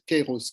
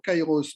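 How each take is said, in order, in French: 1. La première voyelle se prononce comme « ay ». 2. La première voyelle se prononce comme « eye ». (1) "C'est peut-être Kairos qu'il faut dire" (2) "je prononce toujours Kairos, mais peut-être que je prononce mal"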